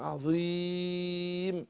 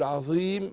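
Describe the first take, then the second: First: The long vowel is held medium, final m silent. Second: The long vowel is held short, final m silent. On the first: "التوسط" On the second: "القصر"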